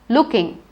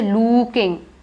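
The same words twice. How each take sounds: First: The vowel is kept short. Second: The vowel is stretched long. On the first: The speaker calls it right. "I say it look, looking" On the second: The speaker calls it wrong. "I don't say looking. I don't stretch it"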